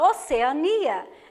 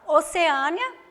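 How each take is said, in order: First: The stress falls on the syllable 'ni' near the end. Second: The stress falls on the syllable 'a' before 'nia'. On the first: "não vai ter acento" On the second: "trata-se de uma paroxítona"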